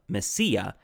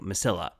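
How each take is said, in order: First: The word is said with Spanish pronunciation. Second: The word is said with English-style pronunciation. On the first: "the proper Spanish pronunciation of Mesilla" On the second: "going the full gringo and saying Mesilla"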